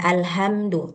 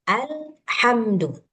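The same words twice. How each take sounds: First: The h is a light breathy sound. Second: The h is a harsh sound from mid-throat. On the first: It changes the meaning to destruction. The speaker calls it wrong. "Jangan alhamdu" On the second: It means all praise. The speaker calls it right. "harus ha"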